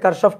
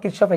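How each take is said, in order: First: The first vowel sounds like 'a'. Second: The first vowel sounds like 'i'. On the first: "কারশফ কিরশফ একই কথা" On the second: "অনেক সময় কেউ কেউ কিরশফও বলে"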